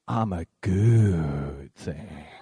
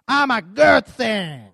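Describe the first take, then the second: First: It is said warmly with love. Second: It is said with sassy attitude. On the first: "I want you to say it with love" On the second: "I want you to say it with some attitude"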